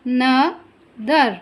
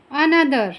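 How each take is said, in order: First: Another slowly split as a, no, ther; long pauses between the beats of Another; spaced-out syllables, A... no... ther. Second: Said in the usual way. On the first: Shown as a demonstration. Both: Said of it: "जितने syllable होंगे".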